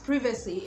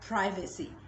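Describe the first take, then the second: First: The word is said with a British pronunciation. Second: The word is said with an American pronunciation. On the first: "it's pronounced privacy in British English" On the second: "while in American English you have privacy"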